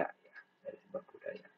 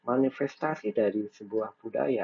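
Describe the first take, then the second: First: Soft breathy repeat under the breath; whispered echo. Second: Said in the usual way. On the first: Shown as a demonstration. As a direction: let the phrase fall away into a whisper. Lecturer repeats phrase as an echo.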